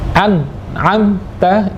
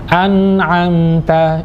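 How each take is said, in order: First: The n sound is cut off, not sustained. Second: The n sound flows on smoothly. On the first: The speaker calls it wrong. "tidak tepat karena tidak dialirkan" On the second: The speaker calls it right. "Jadi yang benar an'amta"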